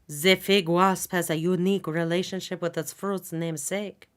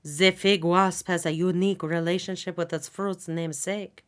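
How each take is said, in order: First: It is read in a put-on French accent. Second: The same.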